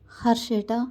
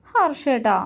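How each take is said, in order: First: Tender call. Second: Higher, whining call of his name; coy whine. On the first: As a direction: gently call him close. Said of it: "ആർദ്രമായി വിളിച്ചു". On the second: Wife whining her husband's name, coy. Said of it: "Kani ചിണുങ്ങി". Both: A narrator's reading.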